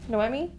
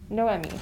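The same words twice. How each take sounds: First: Noemi said as no-EH-mee with a questioning rise; tentative try. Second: Noemi said as no-EH-mee, three syllables, falling and sure; settled pronunciation. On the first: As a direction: test "Noemi" aloud, unsure, ending up. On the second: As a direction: land "Noemi" firmly with a falling close. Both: Shown as a demonstration. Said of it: "I'm gonna try to, um, not say her name wrong".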